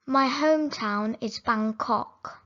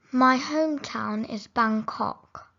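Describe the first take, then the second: No difference in how they are said.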